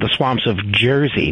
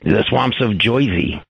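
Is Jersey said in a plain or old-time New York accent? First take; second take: plain; old-time New York. First: Jersey is said in a plain, everyday accent. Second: Jersey is said in an old-time New York accent. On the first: This is how locals really say it. The speaker calls it right. "he just called it the swamps of Jersey" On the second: This is the stereotyped version heard on TV. The speaker calls it wrong. "not the swamps of Jersey"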